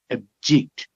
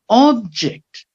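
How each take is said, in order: First: Ub-JECT, low weak start, rising on JECT; stress on second syllable. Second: OB-ject, high OB falling away; stress on first syllable. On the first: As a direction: lean on JECT in "object", as the verb. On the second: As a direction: hit OB in "Object", as the noun. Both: Shown as a demonstration. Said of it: "with a shift of stress".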